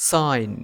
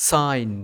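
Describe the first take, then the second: Both takes have the same delivery.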